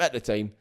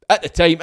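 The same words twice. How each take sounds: First: Quiet muttered repeat of at the time. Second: Loud, higher insistent correction; emphatic. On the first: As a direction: drop at the time to a mumble. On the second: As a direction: stress the words At the time loudly. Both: Real, not acted.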